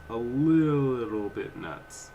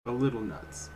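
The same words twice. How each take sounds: First: Drawn out slowly and a bit louder; slow, weighty repeat to stress the point; slow emphatic. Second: Said in the usual way. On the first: Real, not acted. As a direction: stretch every word out for emphasis.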